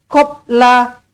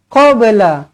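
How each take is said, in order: First: The b is closed flat with no bounce. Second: The b is released with a slight bounce. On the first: The speaker calls it wrong. "Jangan baca qabla, qabla. Tak nak" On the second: The speaker calls it right. "Lantunkan dia qalqalah sughra"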